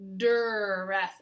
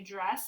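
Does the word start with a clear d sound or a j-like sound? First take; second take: d sound; j-like sound. First: It starts with a clear, separate d sound. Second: It is said fast with a j-like start. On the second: "when we say it really fast, ... it sounds like we're saying j j dress"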